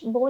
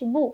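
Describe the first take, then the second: First: The vowel is a mid 'oh' sound. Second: The vowel is a high 'oo' sound. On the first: The speaker calls it wrong. "बा पेश बो नहीं पढ़ेंगे" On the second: The speaker calls it right. "बल्कि हम पढ़ेंगे बा पेश बू"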